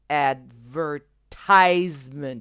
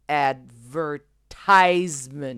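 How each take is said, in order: First: It is said with American stress on the third syllable. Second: It is said with American stress on the third syllable.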